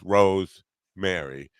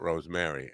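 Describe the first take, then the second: First: It is said as two separate words. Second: It is said as one single word. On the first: Two names, Rose and Mary. The speaker calls it right. "it's two different names" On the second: One single name. The speaker calls it wrong.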